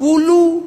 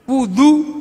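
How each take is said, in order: First: The middle consonant is an l sound. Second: The middle consonant is a d sound.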